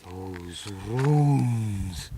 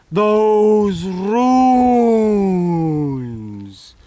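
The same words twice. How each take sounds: First: Said in the usual way. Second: "Those" boomed loud, then a long pause before "runes."; booming dramatic repeat. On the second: Acted.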